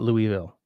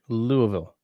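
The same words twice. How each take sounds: First: The name is said the local Canadian way. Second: The name is said the Kentucky way. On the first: The speaker calls it wrong. "not Louisville like we would have up here" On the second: The speaker calls it right. "Louisville, not"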